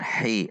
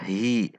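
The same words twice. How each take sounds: First: The h is pressed from the mid throat. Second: The h is a plain, light breath. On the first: The speaker calls it right. "namun hi, ada tekanan dari tengah tenggorokan" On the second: The speaker calls it wrong. "tidak dibaca hi"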